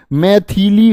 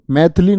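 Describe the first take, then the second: First: मैथिली drawn out as mai-thee-lee; correct full form. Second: मैथिली squeezed to maith-lee; wrong short form. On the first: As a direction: give the middle vowel of मैथिली its full sound, slowly. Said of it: "मैथिली होता है". (मैथिली में थि खींचकर, धीरे बोलें) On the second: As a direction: drop the middle i of मैथिली. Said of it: "मैथिली नहीं". (मैथिली को मैथ्ली जैसा बोलें) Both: Shown as a demonstration.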